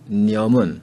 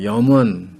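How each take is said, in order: First: The word begins with an n sound. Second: The word begins with a y sound. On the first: This is the North Korean pronunciation. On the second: This is the South Korean pronunciation.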